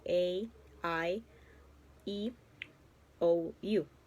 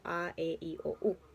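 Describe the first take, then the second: First: The vowels are named with English pronunciation. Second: The vowels are named with Spanish pronunciation. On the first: "pero en inglés se pronuncian de otra manera, como" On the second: "en el español nosotros eh, decimos las vocales como"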